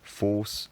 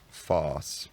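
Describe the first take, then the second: First: The vowel is a higher rounded vowel. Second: The vowel is low and unrounded. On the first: This is the present-day pronunciation. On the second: This is the further shifted pronunciation.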